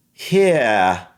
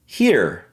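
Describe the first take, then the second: First: British "Here" ending in an open vowel; British accent. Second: "here" with a sounded American R; American pronunciation. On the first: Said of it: "And for British". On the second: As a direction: end "here" on a firm R. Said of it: "how I would generally say it". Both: Shown as a demonstration.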